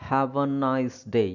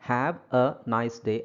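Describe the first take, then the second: First: Each word is said separately with breaks. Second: Each word is said separately with breaks.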